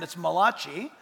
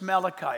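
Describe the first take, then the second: First: Malachi said the Italian way as mah-LAH-chee. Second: Said in the usual way. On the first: Shown as a demonstration. Joking that Italians say Malachi, mah-LAH-chee. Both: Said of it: "If you're Italian, it's Malachi".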